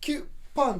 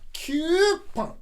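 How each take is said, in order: First: The first syllable is short and quick. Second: The first syllable is drawn out long. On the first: "キュパンだったのが" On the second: "このリズムを変える"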